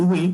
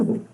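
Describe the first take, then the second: First: "ruim" split as ru-IM, stressed on IM; two-syllable ru-IM. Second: "ruim" in one syllable, beat on U; one-syllable RÚIM. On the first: Teacher giving the first accepted form, ru-IM stressed last. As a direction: say "ruim" with the beat at the end. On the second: Teacher giving the other accepted form, RÚIM in one syllable. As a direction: glide through "ruim" as RÚIM. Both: Shown as a demonstration. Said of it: "as duas estão corretas".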